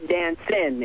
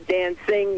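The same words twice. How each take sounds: First: The ending is said with the g dropped. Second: The ending is said as a full 'ing' sound. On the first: This is the relaxed R and B way. The speaker calls it right. "you say dancing in R and B music" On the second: This is the formal way, not used in R and B. The speaker calls it wrong. "you don't say dancing"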